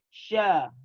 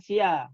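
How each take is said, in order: First: It is said as one syllable, sya. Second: It is said as two syllables, s-i-a. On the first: The speaker calls it right. "tapi sya" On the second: The speaker calls it wrong. "Bukan sia"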